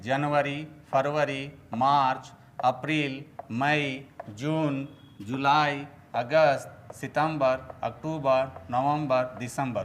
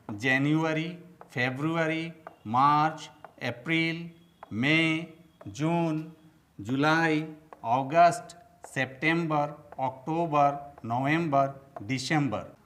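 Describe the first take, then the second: First: Month names said the Hindi way, "जनवरी" as janvari, "फरवरी" as farvari; Hindi pronunciation. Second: Careful English month names, "जनवरी" as jen-yu-ari, "फरवरी" as feb-ru-ari; English pronunciation. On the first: Teacher shows learners how Hindi speakers say the months, Hindi pronunciation. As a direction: say "सितंबर" as sitambar, "अक्टूबर" as aktubar. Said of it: "यह हम लोग हिंदी में इसको बोलते हैं".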